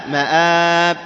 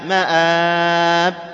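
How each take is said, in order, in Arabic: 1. يُمَدّ حرف المد الثاني مدًّا متوسطًا. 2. يُمَدّ حرف المد الثاني مدًّا طويلًا جدًّا. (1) "المد العارض للسكون بأنواعه الثلاثة" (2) "المد العارض للسكون بأنواعه الثلاثة"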